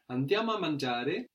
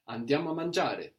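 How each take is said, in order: First: The voice rises at the end like a question. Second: The voice falls at the end like a statement. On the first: It is a suggestion: shall we go to eat? "just the tone of voice" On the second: It states that we are going to eat. "Here we make it sound like a statement"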